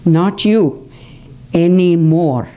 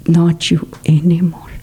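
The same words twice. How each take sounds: First: Said in the usual way. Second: Whispered repeat. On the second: Shown as a demonstration. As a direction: breathe the words out as a gentle whisper. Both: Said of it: "See, so precise".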